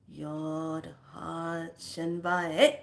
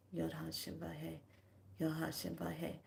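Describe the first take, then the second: First: Slow, stretched chant ending on a rise; drawn-out intoned phrase. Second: Soft, inward murmur; quietly in your mind. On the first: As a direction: draw each word out deliberately. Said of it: "all of a sudden you say". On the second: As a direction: say it softly as if inside your head. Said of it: "saying it in your mind". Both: Shown as a demonstration.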